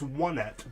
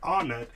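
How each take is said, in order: First: The first syllable sounds like the number 'one'. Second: The first syllable does not sound like 'one'. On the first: The speaker calls it right. "it's Onett, because the rest of the towns are named Tucson, Threed, and Fourside" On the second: The speaker calls it wrong. "is not Onett"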